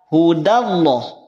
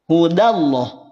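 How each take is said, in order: The two takes are said the same way.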